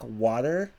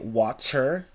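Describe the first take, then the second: First: It is said with an American accent. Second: It is said with a British accent.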